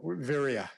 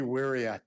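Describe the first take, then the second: First: The word begins with a V sound. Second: The word begins with a W sound. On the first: "the Pali word" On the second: "Sometimes the V is a little like Hawaiian"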